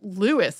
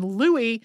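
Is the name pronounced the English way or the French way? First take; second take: English; French. First: The name is said with an English pronunciation. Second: The name is said with a French pronunciation. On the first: This is the form the bearer preferred. "in the English pronunciation" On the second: This is the form the bearer avoided. "as it would be in French"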